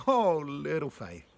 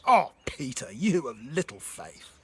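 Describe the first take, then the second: First: Fond, delighted, drawn-out exclamation; tender, amused chiding, stretched out slowly; joyful Jesus. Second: Loud, exasperated rebuke; stern, disappointed outburst with a loud start; angry Jesus. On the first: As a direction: say it slowly with affectionate joy. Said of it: "Do you hear the joy in his voice?". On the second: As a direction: scold him hard, drawing out the reproach. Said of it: "Do you hear an angry Jesus?". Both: Acted.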